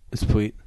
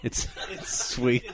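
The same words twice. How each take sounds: First: "sweet" said as "fweet", with an f-like start. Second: Slow, soft, laughing "sweet". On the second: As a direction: laugh it out slowly and quietly. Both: Real, not acted. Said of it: "Was that word just invented".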